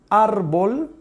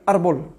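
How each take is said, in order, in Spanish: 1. La primera vocal se mantiene a duración completa. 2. La primera vocal se acorta a la mitad de duración. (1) "yo puedo decir árbol" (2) "si fuera de medio tiempo diría árbol"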